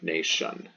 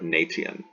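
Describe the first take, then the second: First: The middle consonant is softened to sh. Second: The middle consonant is a hard t. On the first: "So we soften it in English too" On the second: "instead of"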